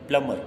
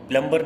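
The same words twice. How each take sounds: First: प्लम्बर as plum-mar; silent B. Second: प्लम्बर as plum-bar, B clearly voiced; B sounded. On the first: Teacher corrects the reading, प्लम्बर with silent B. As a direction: skip the B entirely in प्लम्बर. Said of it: "नहीं पढ़ते हैं". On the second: Teacher shows what not to read, प्लम्बर with B sounded. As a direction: pronounce the middle B in प्लम्बर. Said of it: "प्लम्बर नहीं पढ़ते हैं". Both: Shown as a demonstration.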